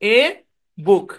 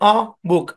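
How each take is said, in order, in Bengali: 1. আর্টিকেলটি পূর্ণ 'ay' স্বরধ্বনি দিয়ে বলা হয়। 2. আর্টিকেলটি দুর্বল 'uh' স্বরধ্বনি দিয়ে বলা হয়। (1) "অ্যাকচুয়ালি এ বুক না" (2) "এখানেও শোয়া সাউন্ড"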